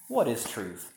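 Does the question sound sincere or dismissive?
dismissive. It sounds scornful, not expecting any answer.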